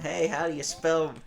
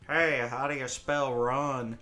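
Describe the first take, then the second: First: It is said in his normal voice. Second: It is said in a put-on voice.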